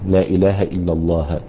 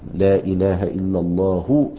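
First: The last word ends with an 'a' vowel. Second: The last word ends with a 'u' vowel. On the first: "لكن لغة يجوز النصب" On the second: "فتأتي مرفوعة"

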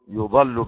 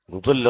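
First: The vowels are u then a. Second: The vowels are u then i. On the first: Someone else leads them astray. "بضم الياء وفتح الضاد" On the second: They lead others astray. "من أضل"

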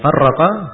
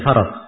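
First: The r sound is held long and doubled. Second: The r sound is short and single. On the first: It asks what divided them. "kalau dibaca farraqa, itu artinya apa yang membuat mereka terpecah" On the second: It asks what they feared. "Ini dibaca farak"

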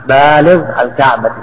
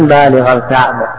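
Both takes have the same delivery.

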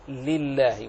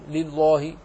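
First: The l sound is light and thin. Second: The l sound is heavy and thick. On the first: The speaker calls it right. "رقق فقل لله وأخلص كسرتها وترقيقها" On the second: The speaker calls it wrong. "سمع من بعض الناس وهو يقرأ لله"

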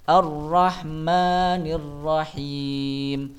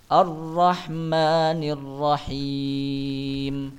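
Both takes have the same delivery.

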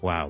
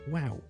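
First: It is said flat, cold and low. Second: It is said high-pitched and lively. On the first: The speaker is being sarcastic. "如果我哋语气平淡少少hea 少少好冷淡呢" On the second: The speaker is genuinely impressed. "但系如果我真心咧，我就好高音发啲wow"

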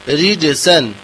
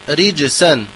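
The two takes are said the same way.

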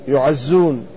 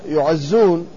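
The two takes are said the same way.

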